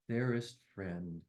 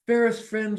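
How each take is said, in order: First: Much softer, lower, slow final words; closing poem line. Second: Louder, higher opening of the verse; opening poem line. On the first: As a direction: let the last line fade gently. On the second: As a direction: launch the poem brightly. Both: Acted.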